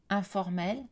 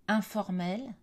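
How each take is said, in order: Both takes have the same delivery.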